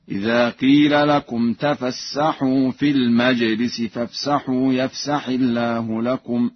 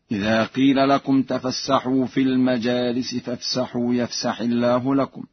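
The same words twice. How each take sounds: First: "المجلس" singular, with a vowelless jim; Warsh reading. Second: Said in the usual way. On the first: Shown as a demonstration. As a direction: recite "المجلس" as al-maj-lis, no long a. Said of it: "بإسكان الجيم على الإفراد هكذا". (قراءة ورش "المجلس" بإسكان الجيم على الإفراد) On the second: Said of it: "بإسكان الجيم على الإفراد".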